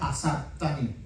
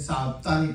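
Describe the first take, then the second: First: The word starts with an extra 'a' sound. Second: The word starts directly with an 's' sound. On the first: The speaker calls it right. "se pronuncia asaptani" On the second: The speaker calls it wrong. "Algunos dicen saptani"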